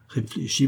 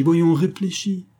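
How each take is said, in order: First: Said in the usual way. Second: Voyons, réfléchis drawn out slow, much higher and louder; insistent plea. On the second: A narrator's reading. Lover begging his mistress to think, slow and much higher. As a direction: push the word voyons, begging her to think. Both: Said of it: "Il balbutia".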